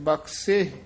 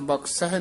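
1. ਸ਼ਬਦ ਸਾਦੇ ਸਵਰ ਨਾਲ ਖ਼ਤਮ ਹੁੰਦਾ ਹੈ। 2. ਸ਼ਬਦ ਹ ਧੁਨੀ ਨਾਲ ਖ਼ਤਮ ਹੁੰਦਾ ਹੈ। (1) "ਸੱਸੇ ਦੀ ਸਿਹਾਰੀ ਦੇ ਨਾਲ ਉਚਾਰਨ ਕਰਨਾ" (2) "ਬਖਸ਼ਹਿ ਨਹੀਂ ਕਹਿਣਾ"

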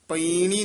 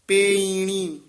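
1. ਪਹਿਲੇ ਸਵਰ ਦੀ ਆਵਾਜ਼ 'a' ਵਰਗੀ ਹੈ। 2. ਪਹਿਲੇ ਸਵਰ ਦੀ ਆਵਾਜ਼ 'e' ਵਰਗੀ ਹੈ। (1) "ਪਈਣੀ ਨਹੀਂ ਕਹਿਣਾ" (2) "ਡੈਸ਼ ਦੇ ਕੇ ਬੋਲਣਾ ਹੈ"

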